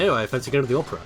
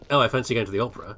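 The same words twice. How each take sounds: First: Lightly voiced posh toff; a touch of put-on poshness. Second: Lightly hammed-up posh Brit, fast; a mock toff airily fancying the opera; a hint of upper-class affectation. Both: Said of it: "the posh voice".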